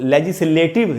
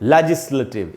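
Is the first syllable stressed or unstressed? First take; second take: unstressed; stressed. First: The first syllable is not stressed. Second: The first syllable is stressed. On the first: The speaker calls it wrong. "इसको legislative नहीं बोलना चाहिए" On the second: The speaker calls it right. "लै में जो ए है वहीं पर स्ट्रेस है"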